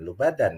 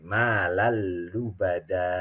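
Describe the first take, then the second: First: The word ends with an n sound. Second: The word ends with a long vowel. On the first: The speaker calls it wrong. "bukan lubadan ya" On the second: The speaker calls it right. "tetapi malalubada"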